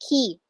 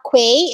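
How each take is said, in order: First: The word sounds exactly like 'key'. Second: The word begins with a 'kw' sound. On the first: The speaker calls it right. "it's key" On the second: The speaker calls it wrong. "not quay"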